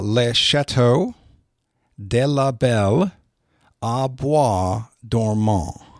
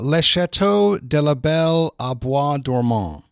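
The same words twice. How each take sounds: First: The phrase is said slowly and deliberately. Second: The phrase is said at a normal pace.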